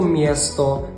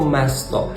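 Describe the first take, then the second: First: The first syllable is 'mie', without an n. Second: The first syllable is plain 'me', without an n. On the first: "це не слово «мєсто»" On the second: "це не слово «место»"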